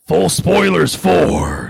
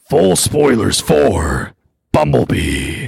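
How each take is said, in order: First: A boisterous, drunken voice like Robert Baratheon. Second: A calmer deep voice like Optimus Prime.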